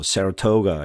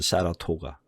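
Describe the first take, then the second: First: One syllable carries a strong stress. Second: All syllables are said evenly without stress. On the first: This is the American English way. "영어로 하면 뭐 Saratoga 이렇게 하는데 액센트도 들어가고 하는데 그거는 이제 미국식이고" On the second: This is the original Latin-style reading. "원래는 사라토가 이게 맞습니다"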